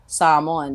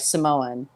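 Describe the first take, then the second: First: The first syllable is long and stressed. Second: The first syllable is short and unstressed. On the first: "just elongating that first part of the word, stressing that first part" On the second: "shortening it"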